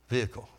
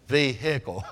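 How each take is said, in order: First: The middle syllable is not stressed. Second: The middle syllable is stressed. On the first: "it's vehicle, vehicle. That's the way they were saying it" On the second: "your emphasis is on the word hick"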